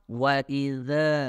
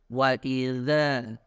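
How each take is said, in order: The two takes are said the same way.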